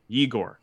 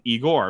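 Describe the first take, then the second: First: The name begins with a y sound. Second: The name begins with a plain vowel sound. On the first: This is the name's real form. The speaker calls it right. "But it's really Igor. ... there's a yeah in front of that" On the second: This is how North Americans read the spelling. The speaker calls it wrong. "North Americans see the E, and it's like Igor"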